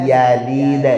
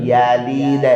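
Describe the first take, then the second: Both takes have the same delivery.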